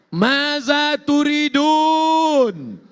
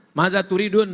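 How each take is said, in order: First: High, loud, long-drawn proclamation; booming divine question. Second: Said in the usual way. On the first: Acted. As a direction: call it out grandly, stretching the vowels. Allah questions those in paradise.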